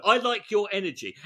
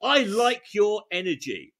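First: Smarmy. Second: Genuine confident. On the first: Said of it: "oh no". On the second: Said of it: "In a genuine, confident tone". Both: Shown as a demonstration.

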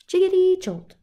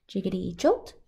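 First: Jiggity jumps up high and loud; high bouncy jolt. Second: Said in the usual way. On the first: Acted. Refrain, second take high.

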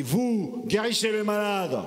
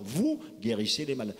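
First: Quoted command. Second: Said in the usual way. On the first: Retold or imitated. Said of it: "quand Gilles Boucaumont a dit". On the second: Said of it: "il a quand même donné l'ordre".

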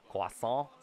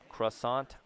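First: Croissant said the French way, "kwah-sohn"; French accent. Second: Croissant the American way, "kruh-SAHNT"; anglicised Croissant. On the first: Player toys with a fun word, French accent. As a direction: say croissant in French, dropping the final t. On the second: Player toys with a French word, anglicised Croissant. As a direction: say Croissant with English r and final t. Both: Shown as a demonstration. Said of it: "say in a French accent".

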